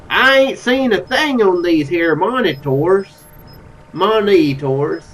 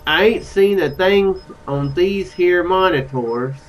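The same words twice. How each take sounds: First: Slow, leaned-into Southern drawl; Southern accent. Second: Slow, lightly Southern drawl; Southern accent. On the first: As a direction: stretch the words out in a fuller Southern twang. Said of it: "Oh, he's Southern". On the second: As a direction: read it slowly with a tentative Southern twang. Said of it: "is he Southern?". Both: Acted.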